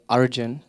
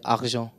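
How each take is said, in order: First: The name is said in an Indian accent. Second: The name is said in a French accent.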